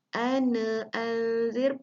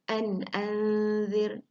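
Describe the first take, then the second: First: The n sound is bounced with an added vowel. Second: The n sound is crisp and clearly stopped. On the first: The speaker calls it wrong. "termasuk qalqalah, bunyinya dilantunkan" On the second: The speaker calls it right. "mesti dibunyikan dengan jelas"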